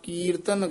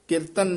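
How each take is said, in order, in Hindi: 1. पहला स्वर लंबा है। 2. पहला स्वर छोटा है। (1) "ਕੱਕੇ ਦੀ ਬਿਹਾਰੀ ਜਿਹੜੀ ਹੈ ਦੀਰਘ ਲਾ ਕੇ ਬੋਲਣਾ ਹੈ" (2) "ਕੀਰਤਨ ਨਹੀਂ ਕਹਿਣਾ"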